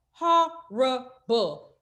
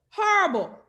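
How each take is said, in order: First: Horrible said very slowly and stretched; drawn-out disgust. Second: Horrible jumped up higher and quick; higher disgusted repeat. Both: Real, not acted. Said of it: "that shit was horrible".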